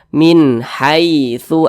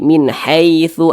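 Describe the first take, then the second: First: The vowel in 'haitsu' is a soft 'ai'. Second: The vowel in 'haitsu' leans toward 'e'. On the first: The speaker calls it right. "dibaca lunak saja" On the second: The speaker calls it wrong. "Jangan sampai condong ke e"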